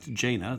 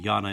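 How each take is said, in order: First: The name begins with a 'j' sound. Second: The name begins with a 'y' sound.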